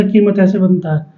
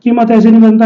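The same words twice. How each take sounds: First: "कीमत" with a longer ee, lower-key; बड़ी ई का उच्चारण. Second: "कीमत" with a quick, short i; छोटी इ का उच्चारण. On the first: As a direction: hold the vowel of "की" in "कीमत". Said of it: "वो थोड़ा सा गैप लिया जाता है". ("कीमत" में की को लंबा करके) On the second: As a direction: rush the first vowel of "कीमत". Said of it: "छोटी की मात्रा है ना वो तेजी से बोली जाती है". ("कीमत" में की को छोटा करके) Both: Shown as a demonstration.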